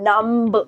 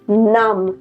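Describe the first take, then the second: First: A b sound is heard at the end. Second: The word ends with no b sound. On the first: The speaker calls it wrong. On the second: The speaker calls it right.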